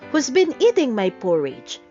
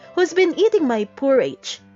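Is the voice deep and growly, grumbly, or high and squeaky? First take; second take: deep growly; high squeaky. First: It is growled in a deep voice. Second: It is squeaked in a high voice.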